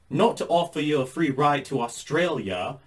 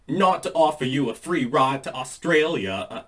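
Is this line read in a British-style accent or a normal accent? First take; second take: British-style; normal. First: It is read in a put-on British-style accent. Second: It is read in the speaker's normal accent.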